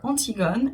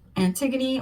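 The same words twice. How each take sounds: First: The name is pronounced the French way. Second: The name is pronounced the English way.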